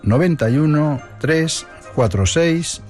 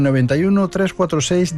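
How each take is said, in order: First: The number is said at a slower pace. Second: The number is said at a faster pace.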